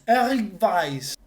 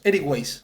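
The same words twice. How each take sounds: First: The name is pronounced the German way. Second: The name is pronounced the Spanish way. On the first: "Primero en alemán" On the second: "Para nosotros"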